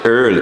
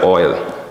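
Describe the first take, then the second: First: The vowel sounds like 'er', as in 'earl'. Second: The vowel sounds like 'oy', as in 'oil'. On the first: This is how Bahamians say it. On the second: This is the standard way to say it.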